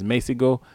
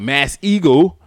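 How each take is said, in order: First: The name sounds like one word, Messego. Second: The name sounds like the words Mass Eagle. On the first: The speaker calls it right. "but it's Messego" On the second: The speaker calls it wrong. "I was like, Mass Eagle"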